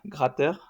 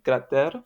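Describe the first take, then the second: First: It is said with a standard French accent. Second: It is said with a Béarnais accent.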